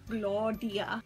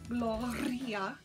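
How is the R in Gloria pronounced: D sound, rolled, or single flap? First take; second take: D sound; rolled. First: The R is said like a D sound. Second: The R is a full rolled trill. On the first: "I would start out with just doing a D sound, like a D" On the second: "Finally, I got it to"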